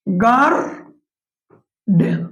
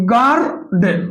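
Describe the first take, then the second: First: গার্ডেন drawn out slowly as গার্-ডেন; গার্ডেন stretched into two clear syllables; split into syllables. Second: Said in the usual way. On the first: Shown as a demonstration. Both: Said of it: "দুইবার উচ্চারণ করতে হয়".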